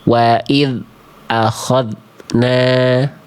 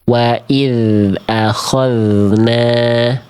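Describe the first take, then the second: First: The dh sound is cut off abruptly. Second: The dh sound is held steady and smooth. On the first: The speaker calls it wrong. "terputus bunyi dzalnya" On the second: The speaker calls it right. "tidak memantul, tidak putus"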